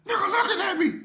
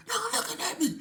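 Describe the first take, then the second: First: High, loud indignant squeal; mock shriek. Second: High indignant squeal, a bit less loud; mock shriek. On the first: Cellmate squealing that his roommate stared at him, mock shriek. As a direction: squeal it out, outraged. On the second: Retelling the cellmate's complaint a second time, mock squeal. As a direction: squeal it out again, outraged.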